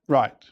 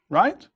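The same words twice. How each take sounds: First: The pitch falls at the end. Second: The pitch rises at the end. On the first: It gives an answer. "Right with a falling tone is an answer" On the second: It asks a question. "when said with a rising tone, indicates a question"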